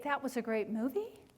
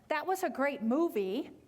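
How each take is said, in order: First: The voice rises at the end. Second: The voice falls at the end. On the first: It sounds like a question and less confident. The speaker calls it wrong. "our voices kind of go up at the end" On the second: It is a confident statement. The speaker calls it right. "if we're making a statement and saying"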